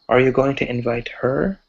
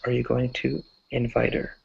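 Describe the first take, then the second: First: The h in 'her' is pronounced. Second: The h in 'her' is dropped.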